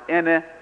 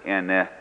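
First: The word is said on a high tone. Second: The word is said on a low tone. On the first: It means madam. "with high tone, pronounced ene" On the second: It means the number four. "pronounce it ene with low tone"

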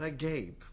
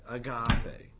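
First: It has two syllables, stressed on the last. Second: It has three syllables, stressed in the middle. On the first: It means open-mouthed in shock. The speaker calls it wrong. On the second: It is the Greek word for love. The speaker calls it right.

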